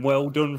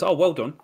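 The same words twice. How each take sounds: First: Patronising praise, pitched up; condescending. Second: Higher, mock-impressed praise; patronising waiter's congratulation; condescending. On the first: Retold or imitated. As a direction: imitate a condescending waiter. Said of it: "like the most condescending". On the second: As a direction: praise them as if they were a small child. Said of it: "like the most condescending "well done".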